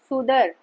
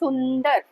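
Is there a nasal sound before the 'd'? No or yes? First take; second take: no; yes. First: There is no nasal sound before the 'd'. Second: A nasal sound comes before the 'd'. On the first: The speaker calls it wrong. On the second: The speaker calls it right.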